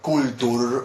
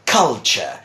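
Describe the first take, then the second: First: The middle consonant is a plain t sound. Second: The middle consonant is a ch sound. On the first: The speaker calls it wrong. "It's not kultur" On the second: The speaker calls it right. "with a ch sound"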